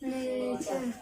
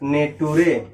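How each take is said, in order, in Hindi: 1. इसे ch की आवाज़ के साथ बोला जाता है, आख़िर में कोई स्वर नहीं। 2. इसे अक्षर-दर-अक्षर पढ़ा जाता है, t की आवाज़ के साथ। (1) "सही प्रोनाउंसिएशन क्या होगा?" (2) "ये क्या है? गलत है।"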